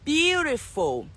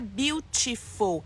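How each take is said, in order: First: The middle t is a soft flap. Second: The middle t is a clear, hard t. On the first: The speaker calls it right. "É sempre como se fosse um som de R ou D" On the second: The speaker calls it wrong. "Não é beautiful"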